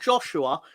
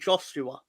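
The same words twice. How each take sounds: First: The middle consonant is a 'sh' sound. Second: The middle consonant is an 's' sound. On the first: The speaker calls it wrong. "It's not Joshua because there's no H in it" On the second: The speaker calls it right. "it's Joshua without the H. So his name's actually"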